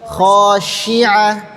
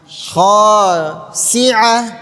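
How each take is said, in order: First: The middle consonant is an sh sound. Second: The middle consonant is an s sound. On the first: The speaker calls it right. "tapi khasyi'ah" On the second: The speaker calls it wrong. "Huruf shin jangan disamakan dengan huruf sin. Ya, jangan khasi'ah"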